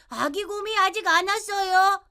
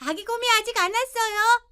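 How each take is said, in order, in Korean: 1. 낮은 음으로 말했어요. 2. 높은 음으로 말했어요. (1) "낮은 음으로" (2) "높은 음으로"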